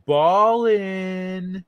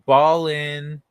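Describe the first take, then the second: First: Ballin' said higher and stretched out, "baaah-lin"; drawn-out ballin'. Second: Ballin' said as "bah-lin", dropping the final g; pronounced ballin'. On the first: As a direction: draw out Ballin' slowly. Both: Shown as a demonstration. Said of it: "it's pronounced".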